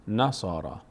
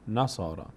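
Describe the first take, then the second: Both takes have the same delivery.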